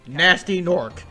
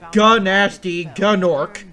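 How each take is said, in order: First: The initial G sound is silent. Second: The initial G sound is pronounced. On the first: The speaker calls it right. "it's canonically pronounced Nasty Nork" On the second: The speaker calls it wrong. "not Gunasty Gunork"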